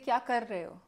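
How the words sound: The r is said with the tongue tapping. This is the learned standard Hindi way. "Now I have लर्न to से"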